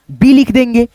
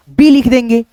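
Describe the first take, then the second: No difference in how they are said.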